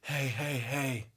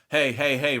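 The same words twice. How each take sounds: First: The voice sounds thin and airy. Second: The voice sounds full and pressed.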